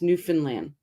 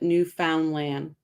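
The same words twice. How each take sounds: First: The syllables of the word are run together. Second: Each syllable of the word is sounded out. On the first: This is how locals say it. The speaker calls it right. "it's Newfoundland. We don't we don't sound it out" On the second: This is how Americans say it. The speaker calls it wrong. "it's a very American thing to call it Newfoundland"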